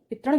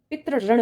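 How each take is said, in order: First: पितृण clipped to pi-trun; पितृण with the ri dropped; पितृण as the mistake; wrong pronunciation. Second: पितृऋण as pi-tri-run with both ri sounds; पितृऋण with the full ऋण; पितृऋण said correctly; correct pronunciation. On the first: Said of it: "पितृण नहीं होता". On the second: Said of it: "पितृऋण होता है". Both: Shown as a demonstration.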